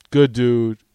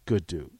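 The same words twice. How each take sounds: First: "Good dude" punched out louder; "Good dude" said with a louder, firmer stress; emphatic. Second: Said in the usual way. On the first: Shown as a demonstration. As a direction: hit "Good" firmly.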